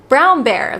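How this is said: It is said with an American accent. "like how she in her American accent would say it"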